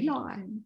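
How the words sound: It is said in a posh accent.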